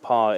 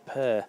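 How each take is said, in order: First: The vowel is an open 'ah' sound. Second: The vowel is a central 'er' sound. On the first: The speaker calls it wrong. "it's not par" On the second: The speaker calls it right. "it's per"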